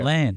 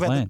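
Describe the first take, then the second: First: The syllable 'land' is said strongly and clearly. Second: The syllable 'land' is said weakly and quickly. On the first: "You're really hitting the land quite hard" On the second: "I'd throw the land away"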